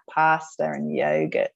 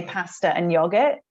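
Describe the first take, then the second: First: PASTA with a long open ah, YOGURT with a long oh as in go; Australian-style alternative pronunciation. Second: PASTA with a short flat a as in cat, YOGURT with a short o as in dog; short vowels in "pasta" and "yogurt", as an Australian child says them; child's Australian pronunciation. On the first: Shown as a demonstration. Mum contrasting her son's words, long-vowelled "pasta" and "yogurt". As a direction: slowly say "pasta" as PAH-sta and "yogurt" as YOH-gurt. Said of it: "rather than pa".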